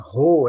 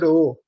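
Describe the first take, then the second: First: The R is said the plain Brazilian way. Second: The R is said with a Ukrainian accent. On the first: This is not how the Ukrainian descendant says it. "ele não fala ro" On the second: This is how the Ukrainian descendant says it. "ele fala ro"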